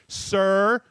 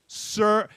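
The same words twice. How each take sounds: First: The word is said in a petulant tone. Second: The word is said in a petulant tone.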